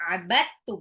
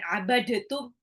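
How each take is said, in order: First: The d merges fully into the following t. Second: The d is sounded separately before the t. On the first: The speaker calls it right. "Dalnya udah langsung lebur sama tak ya" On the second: The speaker calls it wrong. "bukan abadatum"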